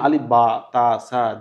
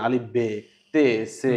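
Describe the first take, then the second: First: The letters sound like ba, ta, sa. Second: The letters sound like be, te, se. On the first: It is grammatically correct but feels lifeless. "শুদ্ধতার নামে" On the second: It touches the heart and connects to God. "ওই যে আঞ্চলিক টোনে সে উচ্চারণটা করে"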